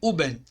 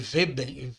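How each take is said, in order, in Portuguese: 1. A palavra começa com o som de U. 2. A palavra começa com o som de Ve. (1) "se transforma de Uben" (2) "Ficaria muito estranho de pronunciar"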